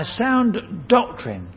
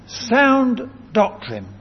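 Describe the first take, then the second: First: Said in the usual way. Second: "Sound doctrine" slow, with "Sound" pitched high; slow, raised stress on "Sound"; emphatic repeat. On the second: Shown as a demonstration. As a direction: punch "Sound" high, then land "doctrine".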